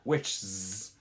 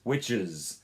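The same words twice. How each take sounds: First: The ending has no vowel before the final consonant. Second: The ending has a short vowel before the final consonant. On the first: The speaker calls it wrong. "it's not witches" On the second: The speaker calls it right. "you're including a little bit of a vowel in there"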